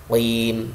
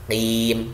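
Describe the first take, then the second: First: "Qim" with a heavy back q; raised-tongue qaf. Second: "qim" with a thin, flat-tongued q; wrong qaf. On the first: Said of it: "tapi lidahnya diangkat". ("Qim" dengan qaf tebal, lidah terangkat) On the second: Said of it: "bukan qim. Bukan terhampar lidah". ("qim" tipis dengan lidah terhampar) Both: Shown as a demonstration.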